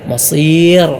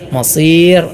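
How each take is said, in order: No difference in how they are said.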